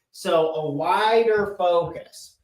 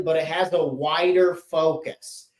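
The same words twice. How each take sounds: First: "wider focus" said slowly, leaning on "wider"; stress on wider. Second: Said in the usual way. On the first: Shown as a demonstration. Teacher to class, repeating the point with slow stress on "wider".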